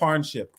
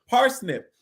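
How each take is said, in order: First: It sounds like 'parn-ship', without the s. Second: It sounds like 'pars-nip', with the s. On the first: The speaker calls it wrong. "I said parnship" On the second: The speaker calls it right. "so parsnip"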